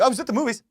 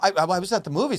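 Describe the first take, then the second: First: It is said quickly, without hesitation. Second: It is said hesitantly, with stammering.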